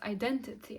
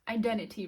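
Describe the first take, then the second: First: The middle T sound is clearly pronounced. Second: The middle T sound is dropped. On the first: "it sounds better when I say it as identity" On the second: "you should not pronounce T, so it's like identity"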